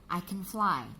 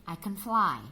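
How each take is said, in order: The two takes are said the same way.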